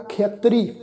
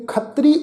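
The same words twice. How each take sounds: First: ਖੇਤਰੀ with a gliding "khea-" first syllable; pronunciation with sihari. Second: ਖੱਤਰੀ with short "a", "khat-tree"; incorrect pronunciation. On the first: Teacher models the correct reading, ਖੇਤਰੀ with "khea" glide. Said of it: "ਤੋ ਇੱਥੇ ਉਚਾਰਨ ਕਰਾਂਗੇ". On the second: Teacher warns against this reading, ਖੱਤਰੀ as short "khat-tree". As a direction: say ਖੱਤਰੀ without any "e" glide. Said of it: "ਖੱਤਰੀ ਉਚਾਰਨ ਨਹੀਂ ਕਰਨਾ". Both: Shown as a demonstration.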